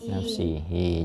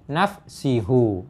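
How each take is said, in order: First: The word ends with an 'i' vowel. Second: The word ends with a 'u' vowel. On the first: The speaker calls it right. "maka dibaca nafsi nafsihi" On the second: The speaker calls it wrong. "Jangan dibaca ... atau dibaca nafsihu"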